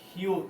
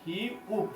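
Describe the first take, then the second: First: Said in the usual way. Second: "হিউক" softly split into হি, then উক; syllable by syllable. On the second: Shown as a demonstration. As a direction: sound out "হিউক" with a gap before উক. Teacher breaks up letter name. ("হিউক" ভেঙে ভেঙে, হি... উক)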